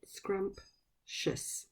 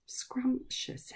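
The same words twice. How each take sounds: First: Whispered syllables. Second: Whispered word. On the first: Teacher counting syllables with the class, whispered. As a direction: whisper "Scrumptious" in two clear parts, scrump and tious. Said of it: "How many syllables". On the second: Teacher whispering a new word to children, whispered. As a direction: whisper "Scrumptious" with no voice, each syllable clear. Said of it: "Can you say scrumptious". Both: Shown as a demonstration.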